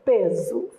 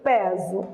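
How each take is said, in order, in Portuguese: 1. A vogal 'e' tônica é fechada. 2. A vogal 'e' tônica é aberta.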